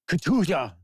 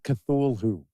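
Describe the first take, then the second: First: The word is said with a cough-like, sneezing sound. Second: The word is said with plain, ordinary sounds. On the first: The speaker calls it right. "It's almost like a cough, sneeze, sort of" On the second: The speaker calls it wrong. "It is not Cthulhu"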